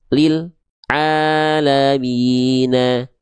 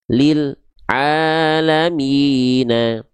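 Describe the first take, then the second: No difference in how they are said.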